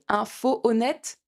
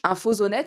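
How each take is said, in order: First: The words are said without a linking z sound. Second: The words are joined by a linking z sound. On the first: The speaker calls it wrong. "c'est moche" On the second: The speaker calls it right. "c'est beaucoup mieux"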